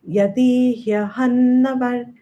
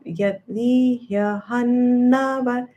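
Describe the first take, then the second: First: It is said quickly without any pause. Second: It is said with a small pause inside.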